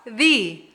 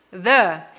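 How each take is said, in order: First: "the" with a long ee vowel; "the" as thee. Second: "the" with a short uh vowel; "the" as thuh. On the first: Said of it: "Som de vogal". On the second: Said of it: "Som de consoante". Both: Shown as a demonstration.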